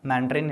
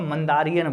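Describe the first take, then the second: First: The word is said with three syllables. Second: The word is said with four syllables. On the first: The speaker calls it right. "मैंडरिन इसको कहते हैं भाई" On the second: The speaker calls it wrong. "कभी कभी ना हम पहले इसको मंदारियन बोलते थे"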